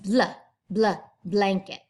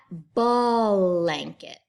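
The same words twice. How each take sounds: First: Bl, bl, blanket with b and l run together; short bl twice, then blanket with no vowel after b; blended bl. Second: Blanket drawn out slowly as ball-anket; vowel inserted in blend. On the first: Teacher modelling blanket for children, tightly blended bl. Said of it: "It's not blanket". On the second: Teacher showing the wrong way to say blanket, stretched extra vowel. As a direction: split blanket with a long vowel between b and l. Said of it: "sounds like there's a vowel in there". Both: Shown as a demonstration.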